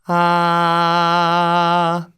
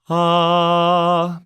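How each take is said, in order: First: The tone rings brightly in the face and head. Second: The tone sounds dull, with head resonance cut off. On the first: "If I don't make the face" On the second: "if I cut that area off"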